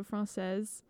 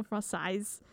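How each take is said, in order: First: French pronunciation. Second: French Canadian pronunciation. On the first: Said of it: "if you were to say something's French". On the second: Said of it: "French Canadian accent". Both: Shown as a demonstration.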